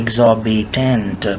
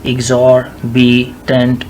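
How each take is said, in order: First: The R sound is silently dropped. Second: The R sound is clearly pronounced. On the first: "फिर आर को उड़ा दें चुपके से" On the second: "शुरू में यूँ कहें, एग्जॉर्बिटेंट ऐसे कहें"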